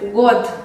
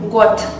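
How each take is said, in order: First: The word ends with a voiced d sound. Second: The word ends with a voiceless t sound. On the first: "se escribe con una D sonora en el fin" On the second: "pero se pronuncia got"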